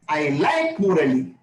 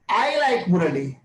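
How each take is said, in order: First: The stress falls on the word like. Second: The stress falls on the word Murali. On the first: The speaker does not hate him. "if I shift the stress" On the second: The speaker likes him and nobody else. "nobody else"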